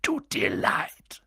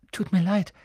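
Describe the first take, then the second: First: Slow, rough incredulous bark from a giant; low, drawn-out indignant growl. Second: Put-on quick, higher-pitched boy's apology; small higher voice, said hastily; hasty apology. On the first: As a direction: bark it back in disbelief. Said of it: "bellte Hagrid". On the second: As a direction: blurt out a quick sorry. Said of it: "sagte Harry rasch". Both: A narrator's reading.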